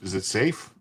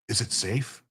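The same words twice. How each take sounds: First: It is said in the speaker's normal voice. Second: It is said in a Gandalf impression voice.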